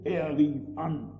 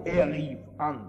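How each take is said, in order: First: "rief" slow, falling; slow weighted "er rief an"; stress on rief. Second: Said in the usual way. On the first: Shown as a demonstration. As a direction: spell out "er rief an" slowly. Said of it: "mit dieser Vokabel".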